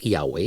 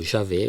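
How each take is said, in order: First: The name is not said the Brazilian way. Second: The name is said another Brazilian way. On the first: "eu vou pronunciar Yahweh" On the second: "como diria no Brasil"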